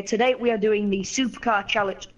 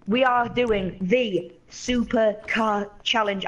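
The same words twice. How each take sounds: First: Said in the usual way. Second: "are" stressed in a slow, drawn-out announcer delivery; slow show announcement. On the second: Shown as a demonstration. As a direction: draw out "we are doing the Supercar Challenge" with weight on "are".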